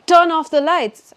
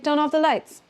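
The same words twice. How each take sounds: First: The words are said separately, without linking. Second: The words are linked together smoothly. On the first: The speaker calls it wrong. "I won't say" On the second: The speaker calls it right. "I'll say"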